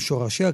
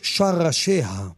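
First: The first vowel is an 'o' sound. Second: The first vowel is an 'a' sound. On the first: The speaker calls it wrong. "לא אומרים שורשיה" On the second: The speaker calls it right. "כי אין בשפה העברית שורשים, יש שרשים"

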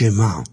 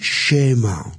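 First: The stress is on the last syllable. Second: The stress is on the first syllable. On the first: The speaker calls it right. "יש שמע מלרע" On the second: The speaker calls it wrong. "אין שמע"

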